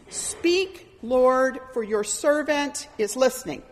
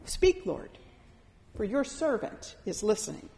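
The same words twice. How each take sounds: First: A ready servant speaking up; firm, clear reply. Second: Much softer, falling away into the listening; a soft, humble offering; hushed prayer. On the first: Retold or imitated. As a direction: answer the call plainly and firmly. Samuel answering the Lord's call. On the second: Shown as a demonstration. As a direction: pray it quietly, inward. Prayer repeated as a quiet stance.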